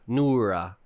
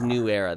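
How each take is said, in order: First: The two words are merged into one word. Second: The name is said as two separate words. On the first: The speaker calls it wrong. "I've been saying that wrong the whole time. I said Nura" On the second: The speaker calls it right. "It's New Era"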